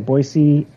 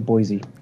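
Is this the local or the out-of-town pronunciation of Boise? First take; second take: local; out-of-town. First: It is pronounced the way local residents say it. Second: It is pronounced the way visitors say it. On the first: The speaker is from the town. "locals say Boise" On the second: The speaker is from out of town. "out-of-towners say Boise"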